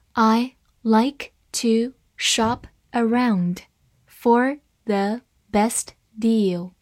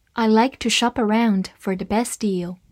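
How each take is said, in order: First: Slow, word by word, each word clear; slow reading. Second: Said in the usual way. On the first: Shown as a demonstration. Teacher reads the sentence slowly to students. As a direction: read it slowly for learners. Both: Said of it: "好，慢慢来读。".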